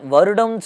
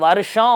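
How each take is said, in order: First: The middle consonant is a retroflex d sound. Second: The middle consonant is an sh sound. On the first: This is the Tamil form of the word. "இதை நம்ம தமிழ்ல வருடம் சொல்றோம்" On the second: This is the Sanskrit form of the word. "வடமொழியில வருஷம் அப்படின்வாங்க"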